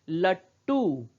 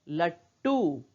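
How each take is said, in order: No difference in how they are said.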